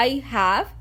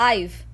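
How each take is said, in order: First: "I have" as two full, separate words; uncontracted. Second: "I've" as one syllable ending in v; contracted. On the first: English coach showing what to avoid, "I have" said in full. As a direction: sound both "I" and "have" completely. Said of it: "instead of". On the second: English coach modelling natural speech, "I've" in one syllable. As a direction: join "I've" into one short word. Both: Shown as a demonstration.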